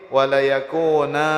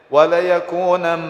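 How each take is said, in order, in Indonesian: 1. Kata ini berakhir dengan vokal panjang a. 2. Kata ini berakhir dengan bunyi n, yang menempel. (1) "wa tuqra'u indal waqfi" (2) "dibacakan kalimat itu indal wasli ketika bersambung"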